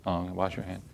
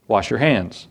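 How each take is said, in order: First: Much softer, lower mock repeat of wash your hand; muttered echo. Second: Said in the usual way. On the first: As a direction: mutter it back under your breath. Mock echo of nurse order. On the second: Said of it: "immediately they stopped us".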